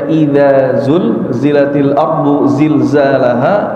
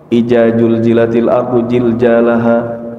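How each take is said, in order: First: The first word starts with a dh sound. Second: The z-like sounds are all j sounds. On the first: The speaker calls it right. "Harusnya dibaca" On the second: The speaker calls it wrong. "Kadang ada yang baca jim semua"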